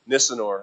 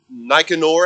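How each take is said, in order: First: The C is pronounced as an S sound. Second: The C is pronounced as a hard K sound.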